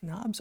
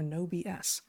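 First: The name is said as one word. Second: The name is said with letters spelled out. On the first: "You can pronounce it either way you like" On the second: "You can pronounce it either way you like"

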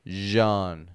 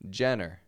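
First: The word is said like genre. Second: The word is said like Jenner. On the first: The speaker calls it right. "We don't want to say Jenner or anything like that, but genre" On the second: The speaker calls it wrong. "maybe you've pronounced this Jenner. I hear that often"

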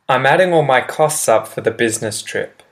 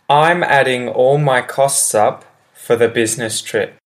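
First: The sentence is spoken at a quick pace. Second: The sentence is spoken at a slower pace.

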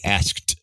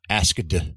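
First: The word ends with a voiceless t sound. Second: The word ends with a voiced d sound. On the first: The speaker calls it right. "but asked" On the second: The speaker calls it wrong. "it's not asked"

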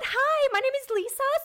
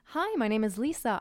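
First: It sounds overexcited and gushing. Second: It sounds calm and professional.

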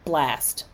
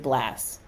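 First: Both final consonants, s and t, are pronounced. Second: The final cluster is reduced, dropping the t.

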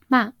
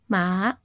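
First: The pitch falls through the syllable. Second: The pitch falls and then rises. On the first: It means to scold. "with a falling pitch, which is tone 4" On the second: It means horse. "which is falling, then rising tone"

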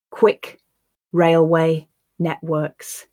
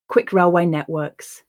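First: The phrase is said slowly and carefully. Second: The phrase is said at natural speed. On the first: "Once, slowly, for you to grasp the words" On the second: "I'll then repeat it at a more natural pace"

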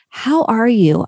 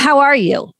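First: The tone sounds warm and caring. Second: The tone sounds flat and dismissive. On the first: The asker genuinely cares about the answer. The speaker calls it right. "I know you were sick last week" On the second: The asker is not genuinely interested. The speaker calls it wrong. "you could hear the difference in tone"

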